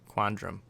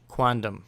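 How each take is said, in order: First: The second syllable contains an R sound. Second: The second syllable has no R sound. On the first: The speaker calls it wrong. "Not quandrum" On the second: The speaker calls it right.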